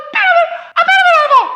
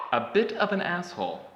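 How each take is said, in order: First: Very high squeak, a little louder; cartoonish high-pitched squeak; squeaky high voice. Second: Said in the usual way. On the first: Shown as a demonstration. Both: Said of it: "In case that was totally unintelligible".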